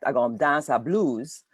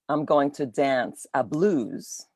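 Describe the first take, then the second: First: It is said in Virgin Islands Crucian dialect. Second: It is said in standard English.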